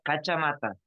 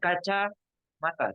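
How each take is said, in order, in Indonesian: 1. Kedua bagian itu disambung tanpa jeda. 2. Jeda memisahkan dua bagian dari kata itu. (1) "satu benda" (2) "Tidak boleh dibaca uh, jeda. Tidak boleh bilang"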